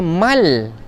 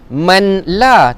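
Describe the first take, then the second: First: The n merges completely into the l. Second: The n is heard clearly before the l. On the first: The speaker calls it right. "Tapi baca mal" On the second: The speaker calls it wrong. "jangan baca mim nun mati di atas man. Man la, tak"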